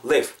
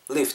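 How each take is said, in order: First: "live" said as "lee-boo"; wrong two-syllable live. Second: "live" as one short "liv". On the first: Teacher shows learners the mistake, "live" as "lee-boo". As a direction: add a Korean vowel after "live", lee-boo. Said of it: "live가 아니고 live". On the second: Teacher corrects learners, one short syllable "live". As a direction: keep "live" short, ending on a pure v. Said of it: "짧게 그냥 live". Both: Shown as a demonstration.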